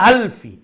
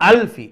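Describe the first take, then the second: No difference in how they are said.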